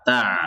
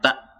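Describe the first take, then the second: First: The final sound keeps flowing after the vowel. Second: The final sound stops abruptly after the vowel. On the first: The speaker calls it right. "masih ada suara mengalir" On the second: The speaker calls it wrong. "tidak langsung tak"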